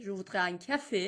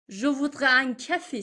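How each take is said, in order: First: Said in the usual way. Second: Slow model take, each word drawn out and louder; teacher models it slowly for the class; slow careful demo. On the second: Shown as a demonstration. Teacher says it slowly for Persian learners.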